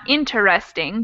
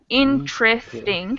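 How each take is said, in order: First: It is said with all four syllables. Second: It is said with only three syllables. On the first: The speaker calls it wrong. "not interesting" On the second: The speaker calls it right. "the same thing happens with interesting"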